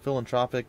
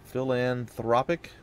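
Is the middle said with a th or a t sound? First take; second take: t; th. First: The middle is said with a plain t sound. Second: The middle is said with a th sound. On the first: The speaker calls it wrong. "I think I said tropic" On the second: The speaker calls it right. "I think that's probably how you say it"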